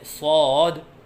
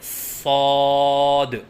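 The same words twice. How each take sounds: First: The long vowel wavers up and down. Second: The long vowel is held steady. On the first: The speaker calls it wrong. "आवाज़ में लहराव सा पैदा करते हैं, ये गलत है" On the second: The speaker calls it right. "तीन अलिफ के बराबर लंबा करके पढ़ें"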